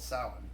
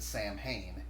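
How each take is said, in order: First: It is said without the spelled-out 'Sam Hain' sounds. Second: It is said as two parts, 'Sam' and 'Hain'. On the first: The speaker calls it right. "It's called Samhain" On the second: The speaker calls it wrong. "everyone in the movie pronounces it Sam Hain"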